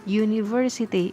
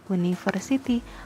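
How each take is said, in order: First: The word starts with a y sound. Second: The word starts with a plain u vowel. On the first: The speaker calls it right. "cara bacanya adalah university" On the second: The speaker calls it wrong. "bukan university"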